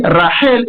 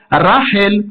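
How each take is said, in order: First: Rachel with the weight on the ending; stress on last syllable. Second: Rachel stressed on its opening syllable; stress on first syllable. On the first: Teacher explains the reading, Rachel stressed at the end. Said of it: "j'ai dit Rachel et non pas Rachel". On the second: Teacher shows the wrong reading, first-stressed Rachel. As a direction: punch RA in Rachel, final syllable light. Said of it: "et non pas Rachel". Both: Shown as a demonstration.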